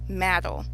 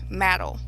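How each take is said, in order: First: The word is said like 'maddle'. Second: The word is said like 'maddle'.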